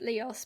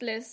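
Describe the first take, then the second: First: The word is said like 'Leos'. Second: The word is said like 'Liss'. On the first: The speaker calls it wrong. "my first instinct was to pronounce it Leos" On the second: The speaker calls it right. "but it is pronounced Liss"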